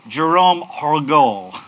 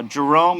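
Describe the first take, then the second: First: "Jerome Hergol" said slowly with both R's rolled French-style. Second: Said in the usual way. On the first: Shown as a demonstration. Host introducing the French COO slowly, rolling the R's in "Jerome Hergol". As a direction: roll the R in "Jerome" and "Hergol", taking it slow. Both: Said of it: "I've gotta roll my R's".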